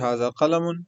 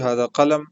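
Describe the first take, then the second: First: The last word ends with an added -un. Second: The last word ends without any -un. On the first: This is the formal grammatical form. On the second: This is the everyday colloquial form.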